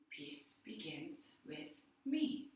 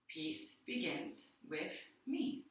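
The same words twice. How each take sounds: First: It is spoken more quietly and lower. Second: It is spoken in a full normal voice.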